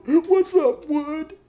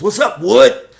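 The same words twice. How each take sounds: First: Hammed-up crying in a very high squeak; Josh. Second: Loud, high, hearty greeting; Polar Bear. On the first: Crying inmate greeting his buddy back, hammed-up weepy falsetto. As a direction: answer through exaggerated weepy falsetto. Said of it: "Josh is crying and stuff". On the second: Acted. Prison buddy greeting crying Josh, loud and hearty. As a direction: holler a hearty hello to a buddy. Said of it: "Polar Bear says".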